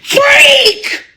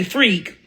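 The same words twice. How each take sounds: First: Mock yell. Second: Muttered "Freak." said low and soft under the breath; mock taunt. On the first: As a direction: scream "Freak!" at the top of your voice. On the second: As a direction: mutter "Freak." quietly like a sneer. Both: Shown as a demonstration.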